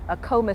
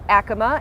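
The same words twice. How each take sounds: First: It uses the local Denver pronunciation. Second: It uses the original pueblo pronunciation. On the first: This is how residents traditionally say it. "People born and raised in Denver call this street Acoma Street" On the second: This follows the name of the original pueblo. "but it's actually, like you said, pronounced Acoma"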